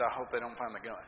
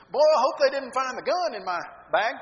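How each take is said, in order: First: Lower, hushed and scared; low frightened voice. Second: Higher and louder, joking tone; sarcastic joke. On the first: Scared teen answers the security officer in a low voice. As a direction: mumble it like a caught kid. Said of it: "in a very low, getting very frightened voice". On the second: Teen jokes to the security guard, sarcastic and loud. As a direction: toss it off as an obvious joke. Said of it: "come across kind of sarcastic". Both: Retold or imitated.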